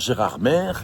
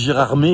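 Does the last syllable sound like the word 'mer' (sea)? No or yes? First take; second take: yes; no. First: The last syllable sounds like the word 'mer'. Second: The last syllable does not sound like 'mer'. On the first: The speaker calls it wrong. "et pas Gérardmer. Parce que la mer, c'est pas ici" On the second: The speaker calls it right. "on dit Gérardmer"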